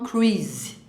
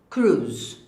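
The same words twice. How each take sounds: First: The word has two separate vowel sounds. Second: The word has one single vowel sound. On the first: The speaker calls it wrong. "a gente não fala Tom Cruise" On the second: The speaker calls it right. "esse I não é pronunciado ... o correto"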